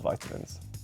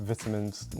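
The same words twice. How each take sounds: First: It is said with an American pronunciation. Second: It is said with a British pronunciation. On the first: "not vitamins" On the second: "we pronounce it vitamins"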